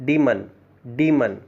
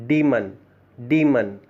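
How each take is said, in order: The two takes are said the same way.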